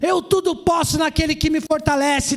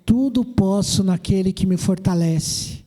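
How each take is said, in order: First: It is said in a haughty, defiant tone. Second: It is said in a humble, content tone.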